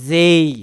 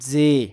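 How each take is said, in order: First: The vowel glides toward an ee sound. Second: The vowel stays steady without a glide. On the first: The speaker calls it right. "জয় একার রস্বই যেই" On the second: The speaker calls it wrong. "আমরা আগে উচ্চারণ করতাম যে"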